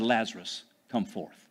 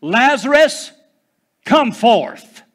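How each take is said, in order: First: Low and soft, almost under the breath; Jesus quietly calling Lazarus out; quiet command. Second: Commanding shout, pitched high and loud; Jesus shouting into the grave; loud cry. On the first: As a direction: say it with calm hushed authority. Same command retold quietly. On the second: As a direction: call the dead man out of the tomb. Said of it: "Jesus cried with a loud voice". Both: Acted.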